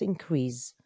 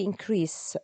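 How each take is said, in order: First: "increase" ending in a buzzing z sound, as a verb, said slowly. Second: "increase" ending in a clear s sound, as a noun. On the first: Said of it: "it would turn to the z sound". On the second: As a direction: say "increase" with a hissing s at the end. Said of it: "increase with a s sound". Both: Shown as a demonstration.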